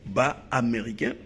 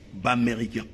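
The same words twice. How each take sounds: First: Both vowels are kept, ba then Américain. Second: The vowel after b is dropped before Américain. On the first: "au lieu de dire" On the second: "On enlève un voyelle sur B"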